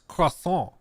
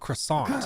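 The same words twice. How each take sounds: First: It is said with a French-style pronunciation. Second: It is said with an American-style pronunciation. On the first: The speaker calls it right. "it's croissant" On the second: The speaker calls it wrong. "Americans, ... not croissant"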